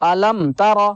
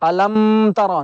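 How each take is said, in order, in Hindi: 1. मीम के बाद होंठ जल्दी अलग हो जाते हैं। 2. मीम को नाक की हल्की गुनगुनाहट के साथ रोका जाता है। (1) "जल्दी हमें होंठों को जुदा कर देना" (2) "ऐसे नहीं पढ़ना"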